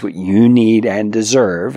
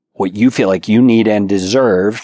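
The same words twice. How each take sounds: First: Slow, deliberate stress on "need and deserve"; pointed emphasis. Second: Said in the usual way. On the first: Shown as a demonstration. Urging husbands to hear those words, "need and deserve" slowly emphasized. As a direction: spell out "need and deserve" slowly, drawing out each word. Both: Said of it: "hear those words".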